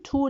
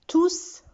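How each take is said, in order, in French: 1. Le S final est muet. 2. Le S final se prononce à l'oral. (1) "quand il est déterminant ou bien adjectif, on ne prononce pas le S" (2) "Le S final s'entend à l'oral, ça veut dire on le prononce"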